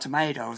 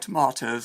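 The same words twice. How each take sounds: First: The middle syllable sounds like 'mate'. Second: The middle syllable sounds like 'mart'. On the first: The speaker is American. "with the middle syllable of tomatoes pronounced mate" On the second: The speaker is English. "with the middle of tomatoes pronounced mart"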